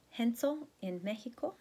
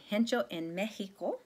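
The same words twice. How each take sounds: First: Higher Castilian Spanish rendering; lightly put-on Castilian accent. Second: Said in the usual way. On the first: Shown as a demonstration. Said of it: "say it with a Castilian accent". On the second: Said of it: "if I were to say it".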